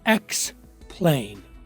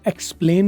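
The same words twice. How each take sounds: First: The k and p sounds are aspirated with breath. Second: The k and p sounds are plain, without breath. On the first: The speaker calls it right. "उसकी आवाज काफ की नहीं बल्कि खे की हो रही है" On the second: The speaker calls it wrong. "नहीं बोलेंगे"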